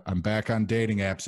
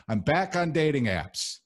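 First: Said in the usual way. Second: Much higher, proud repeat; excited announcement. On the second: Shown as a demonstration.

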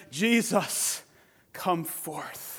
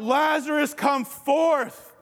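First: A soft, falling call, much quieter; hushed command. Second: Cried out. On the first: Preacher voicing God's Spirit, calling quietly. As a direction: call him out in a near hush. Spirit of God calls Jesus. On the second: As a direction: call him out of the grave. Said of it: "And he cried out". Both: Retold or imitated.

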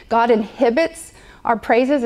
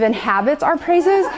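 First: "inhibits" with a short i in the middle; mispronounced word. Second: "inhabits" with an open a in the middle; corrected word. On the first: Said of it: "You're saying it wrong". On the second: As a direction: say "inhabits", with "hab" as in cab. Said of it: "It's inhabits". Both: Retold or imitated.

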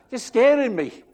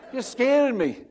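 First: Laughing high pretend fright; mock scared. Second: Laughing high pretend fright, repeated; mock scared. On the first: Pastor voicing the Bible as scared, laughing. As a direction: laugh it out as if spooked. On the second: Pastor voicing the Bible as scared, laughing again.

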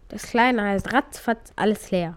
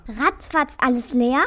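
First: RATZFATZ ALLES LEER stated with a falling end; matter-of-fact statement. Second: RATZFATZ ALLES LEER as a question, rising at the end; disbelieving question. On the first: Cat telling the mouse the baby's name, "ratzfatz alles leer" falling matter-of-factly. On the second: Mouse echoing the cat's odd name, "Ratzfatz alles leer" rising in disbelief. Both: Acted.

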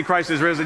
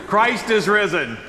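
First: Said in the usual way. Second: Proclaimed out to the room; call to the congregation. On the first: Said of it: "I'll say". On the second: Shown as a demonstration. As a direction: call it out for the response. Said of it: "You say, He is risen indeed".

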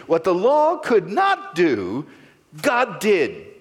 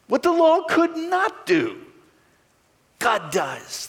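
First: Said in the usual way. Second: High proclaiming reread of the verse; soaring high reread. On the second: Shown as a demonstration. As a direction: lift the whole line much higher, ringing. Reread with God does.

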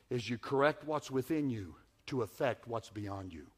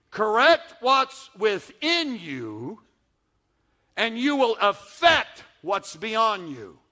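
First: Said in the usual way. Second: Slow each word for weight; slow emphatic repeat. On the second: Shown as a demonstration. Preacher drives the point home, slow and emphatic. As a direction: Correct what's within you drawn out slowly. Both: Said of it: "repeated slower for emphasis".

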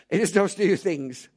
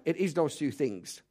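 First: "is" leaned on, said louder; stress on is. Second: Said in the usual way. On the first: Shown as a demonstration. Preacher driving his point home to the congregation, louder stress on "is". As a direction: repeat it louder, hitting "is".

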